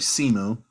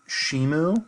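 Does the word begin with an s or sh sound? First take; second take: s; sh. First: The word begins with an s sound. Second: The word begins with an sh sound. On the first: The speaker calls it right. "or I'm sorry" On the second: The speaker calls it wrong. "or I'm sorry"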